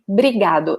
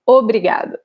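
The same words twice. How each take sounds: First: The opening O sound is dropped. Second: The opening O sound is pronounced. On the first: This is the common everyday way Brazilians say it. "they probably will say obrigado ... So we drop this first O" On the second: This full form is correct but less common in speech. "and not obrigado"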